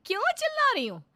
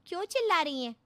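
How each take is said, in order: First: क्यों चिल्ला रही हो thrown back much higher and louder, shouted; daughter-in-law mocking the sister's question with a shout; mocking echo. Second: क्यों चिल्ला रही हैं asked higher and louder, in alarm; sister asking. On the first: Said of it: "चिल्ला चिल्ला कर बात करने लगती है". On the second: Acted. Sister questions the shouting.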